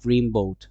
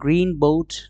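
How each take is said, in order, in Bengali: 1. প্রথম শব্দটি m ধ্বনিতে শেষ হয়। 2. প্রথম শব্দটি n ধ্বনিতে শেষ হয়।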